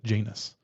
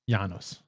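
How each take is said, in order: First: The name is said the British way. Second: The name is said the Latin way. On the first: This is how people in England say it. "If you're in England, they say they pronounce it" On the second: This is how a Roman would say it. "Or if you're a Roman, maybe"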